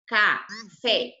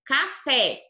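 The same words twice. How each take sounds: First: "Café" broken in two, Ca, pause, fé; split into syllables. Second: Said in the usual way. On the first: Shown as a demonstration. Teacher showing a pupil the last syllable, "Café" split as Ca... fé. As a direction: say "Café" syllable by syllable, pausing before fé. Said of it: "O K é atrás". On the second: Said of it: "a sílaba verdinha aqui é a mais forte".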